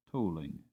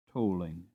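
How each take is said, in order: Both takes have the same delivery.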